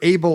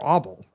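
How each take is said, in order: First: The first vowel sounds like 'ay'. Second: The first vowel sounds like 'oh'.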